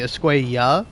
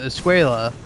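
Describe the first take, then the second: First: The double L sounds like a Y. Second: The double L sounds like an English L. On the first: The speaker calls it right. "it's supposed to be Escuella" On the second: The speaker calls it wrong. "read uh, Javier's name as Escuela"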